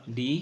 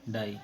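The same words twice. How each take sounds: First: "ڈی" with a long ee vowel; spelling-based reading. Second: "ڈائی" with an eye vowel; true sound of word. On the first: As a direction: read "ڈی" to rhyme with see. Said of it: "ڈی ہی ہے". ("ڈی"، لمبی ای والا تلفظ) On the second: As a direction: read "ڈائی" to rhyme with eye. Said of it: "لیکن ڈائی ہے". ("ڈائی"، آئی والا تلفظ) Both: Shown as a demonstration.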